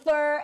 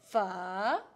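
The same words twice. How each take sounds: First: It sounds like the English word fur. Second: It is said with Vietnamese sounds. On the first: The speaker calls it wrong. "It's not fur in fur, animal fur, right?" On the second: The speaker calls it right. "the proper way to speak fur"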